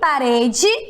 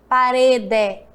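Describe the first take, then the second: First: The final vowel sounds like 'ee'. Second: The final vowel sounds like 'eh'. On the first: The speaker calls it right. "o E também tem som de I" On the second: The speaker calls it wrong. "Eu não falo"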